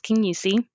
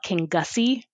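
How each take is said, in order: First: The name is pronounced the local way. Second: The name is pronounced the way it is spelled. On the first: A local is saying it. The speaker calls it right. "But nope, it was Kingussie" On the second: A visitor is saying it. The speaker calls it wrong. "they would call it King Gussie because of how it was spelt"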